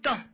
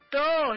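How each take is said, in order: First: The final vowel is short. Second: The final vowel is drawn out long. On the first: The speaker calls it wrong. "no es todo" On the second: The speaker calls it right. "todo larguito, como con dos o tres o es"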